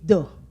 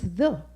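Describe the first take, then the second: First: It is said the local dialect way. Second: It is said the standard English way. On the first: This is how it is said in the community. The speaker calls it wrong. "They will naturally say the" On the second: This is how it is said at school. The speaker calls it right. "no, no, no, no, no, it's the"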